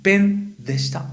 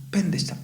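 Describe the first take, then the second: First: Slowed, raised delivery of "pen deshita", each syllable laid out; slow, careful teacher model. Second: Said in the usual way. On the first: Shown as a demonstration. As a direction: say "pen deshita" slowly and clearly for students to copy. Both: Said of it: "Entonces voy a decir".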